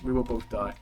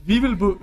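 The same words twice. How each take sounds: First: Said in the usual way. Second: Put-on high, loud African accent; attempted African accent. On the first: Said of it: "I'll just do my regular voice". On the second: Game master voicing Cazador, attempted African accent. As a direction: launch into a rough African accent. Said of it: "I will go with African accent".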